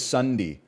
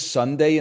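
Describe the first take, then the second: First: "Sunday" ending in a short "dee"; old Canadian pronunciation. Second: Said in the usual way. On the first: Shown as a demonstration. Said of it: "He says Sunday". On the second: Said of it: "but he doesn't say Sunday".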